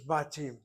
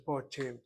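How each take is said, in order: First: The first vowel sounds like 'a'. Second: The first vowel sounds like 'o'. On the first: It is how the word is actually said. The speaker calls it right. "It's pronounced as batim" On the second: It follows the printed spelling with a short kamatz. The speaker calls it wrong. "The word is not pronounced as botim"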